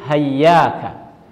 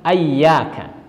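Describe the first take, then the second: First: The word begins with an h sound. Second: The word begins with an a vowel. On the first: "ada yang lain hayyaka" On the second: "Ada juga yang membaca dengan ayyaka"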